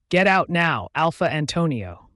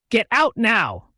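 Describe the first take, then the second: First: "Get out now" firmly stressed, then settling on "Alpha Antonio"; every word stressed calmly. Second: Loud, high, drawn-out command; arrogant order. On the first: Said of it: "I stressed every word with calmness". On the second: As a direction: order them out, slowly and forcefully. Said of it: "I was talking to him arrogantly". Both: A narrator's reading.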